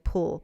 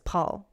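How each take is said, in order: First: The vowel sounds like the one in 'pool'. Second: The vowel sounds like the one in 'Paul'. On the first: The speaker calls it wrong. "I was doing pool" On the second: The speaker calls it right. "but it's Paul"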